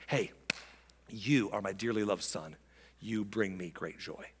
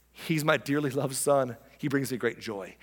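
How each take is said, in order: First: Low, soft and tender; God addressing Jesus. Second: A touch lowered, measured announcement; proudly telling others about a son; God addressing the crowd. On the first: God to his Son at the baptism, intimately tender. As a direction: turn aside and speak privately to a son. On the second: God to the crowd about his Son, measured and proud. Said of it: "he says to the crowd". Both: Acted.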